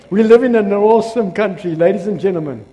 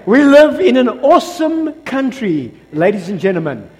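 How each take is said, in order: First: Said in the usual way. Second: Said again with more force. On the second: Shown as a demonstration. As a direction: deliver it properly this time. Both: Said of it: "Hold on, let me say".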